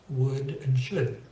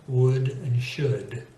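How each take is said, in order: No difference in how they are said.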